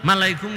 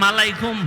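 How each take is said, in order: The two takes are said the same way.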